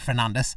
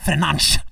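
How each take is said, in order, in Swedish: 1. Namnet har ett svenskt uttal. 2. Namnet har ett portugisiskt uttal. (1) "Alla andra säger Fernandes" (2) "en kommentator på Viaplay som har fått för sig att han heter"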